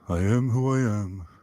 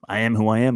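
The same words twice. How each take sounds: First: The voice sounds beaten, submissive and worn down. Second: The voice sounds forceful, assertive and defiant. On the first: Nothing about oneself can ever change. "with the Eeyore voice, the beaten, submissive, worn down" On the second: This is who one is, without apology. "It's way different"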